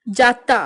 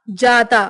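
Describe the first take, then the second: First: Doubled T in जाता; western UP pronunciation. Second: Said in the usual way. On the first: Shown as a demonstration. Teacher showing western UP speech, जाता as jaatta. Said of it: "पश्चिमी उत्तर प्रदेश उच्चारण". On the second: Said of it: "Hindi उच्चारण".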